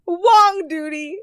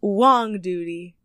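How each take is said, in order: First: High, loud, stretched-out Wong Duty; gleeful exclamation. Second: Wong Duty said slowly at normal pitch; slow announcement. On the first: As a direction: sing out the silly name high and slow. Relishes the silly name again. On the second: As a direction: present the name slowly and deliberately. Announces favourite business name. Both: Real, not acted.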